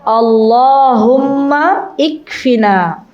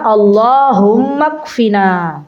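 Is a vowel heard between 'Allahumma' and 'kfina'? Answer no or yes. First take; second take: yes; no. First: An 'i' vowel is sounded before 'kfina'. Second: No vowel; 'Allahumma' runs straight into 'kfina'. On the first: "Tulisannya begitu ya" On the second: "Nanti bacanya"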